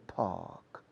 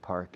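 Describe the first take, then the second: First: It is said in a British accent. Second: It is said in a general American accent. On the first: "The British, with Oxford English or Queen's English" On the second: "Normal American and Canadians"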